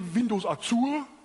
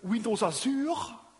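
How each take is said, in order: First: It is said with a German accent. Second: It is said with a French accent. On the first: "Or we in Germany" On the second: "with a French accent"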